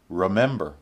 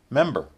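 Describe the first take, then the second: First: It is said in a somewhat reduced form. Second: It is said in its most reduced form.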